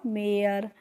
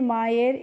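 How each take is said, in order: First: The vowel sounds like 'air'. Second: The vowel sounds like 'eye' plus 'er'. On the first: The speaker calls it right. "हमें पढ़ना है ... मेयर" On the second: The speaker calls it wrong. "मायर इस तरीके से नहीं पढ़ना है"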